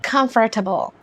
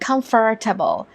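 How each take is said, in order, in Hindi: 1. American accent, बढ़ा-चढ़ाकर बोले गए 'r' की आवाज़ के साथ। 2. अमेरिकन एक्सेंट, बढ़ा-चढ़ाकर बोले गए 'r' की आवाज़ के साथ।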